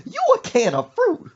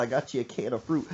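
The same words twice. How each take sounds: First: High, loud incredulous screech; mock outraged mama. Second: Said in the usual way. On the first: Mother throwing back son's offer, screechy mock outrage. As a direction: shriek it back as an outraged question. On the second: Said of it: "He said".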